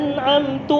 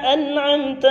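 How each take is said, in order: First: The word ends with a u vowel. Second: The word ends with an a vowel. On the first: I gave favour. The speaker calls it wrong. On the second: You gave favour. The speaker calls it right.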